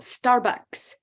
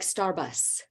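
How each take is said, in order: First: The final k and s sounds are clearly pronounced. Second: The k sound before the final s is dropped. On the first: The speaker calls it right. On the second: The speaker calls it wrong.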